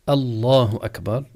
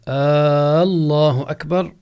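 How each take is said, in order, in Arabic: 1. الحركة الأولى في لفظ الجلالة قصيرة. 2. الحركة الأولى في لفظ الجلالة طويلة. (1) "بدل أن يقول الله أكبر" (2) "يمد الهمزة في، يعني الألف في أول لفظ الجلالة"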